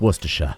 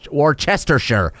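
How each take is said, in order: First: The 'Worcester' part is squeezed into two syllables. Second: Every letter of 'Worcester' is sounded out. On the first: The speaker calls it right. "it's just Worcestershire" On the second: The speaker calls it wrong. "You don't say War"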